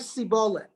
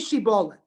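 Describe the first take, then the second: First: The word begins with an 's' sound. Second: The word begins with an 'sh' sound. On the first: The speaker calls it wrong. "They couldn't say shibolet" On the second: The speaker calls it right. "say shibolet"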